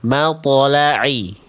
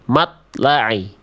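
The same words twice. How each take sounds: First: The ṭ is released with a bounce. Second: The ṭ is held with no bounce. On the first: The speaker calls it right. "To sukun harus dibaca mantul" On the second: The speaker calls it wrong. "to sukun tidak memantul dibaca seperti ini"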